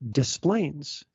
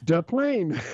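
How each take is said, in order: First: The S sounds in the name are pronounced. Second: The S sounds in the name are silent. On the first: "and you pronounce the S's" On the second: "because if we didn't, you would sound like Tattoo from Fantasy Island"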